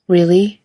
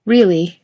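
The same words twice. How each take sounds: First: Rising, eager Really?; Really? lifted up at the end in disbelief; surprised question. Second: Really? settling down at the end, teasing; a knowing, falling Really?; smirking reply. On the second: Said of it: "Jared says with a smirk". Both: A narrator's reading.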